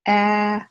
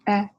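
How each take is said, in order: First: The vowel is held long. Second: The vowel is short. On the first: "and then long vowels" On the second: "we have short vowels"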